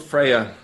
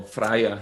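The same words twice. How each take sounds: First: Said in the usual way. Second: Freya said the German way, first syllable like "fry"; German pronunciation. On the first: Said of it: "or Freya in German language". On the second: Shown as a demonstration. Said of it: "German language".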